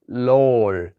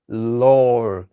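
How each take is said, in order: First: The tongue touches the teeth, like English L. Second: The tongue touches the teeth, like English L.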